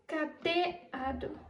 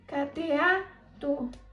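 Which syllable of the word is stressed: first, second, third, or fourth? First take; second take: second; third. First: The stress is on the second syllable. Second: The stress is on the third syllable. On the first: The speaker calls it wrong. "Se a sílaba tônica fosse o T" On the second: The speaker calls it right. "Se a sílaba tônica fosse o A"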